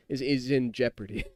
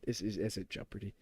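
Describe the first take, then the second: First: Said in the usual way. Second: Muttered aside. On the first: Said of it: "restated normally". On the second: Real, not acted. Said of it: "drops voice on repeat".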